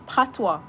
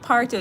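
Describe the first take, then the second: First: The word ends with a 'wah' sound. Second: The word ends with an 'oh' sound. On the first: The speaker calls it right. "it's patois" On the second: The speaker calls it wrong. "It's not partio"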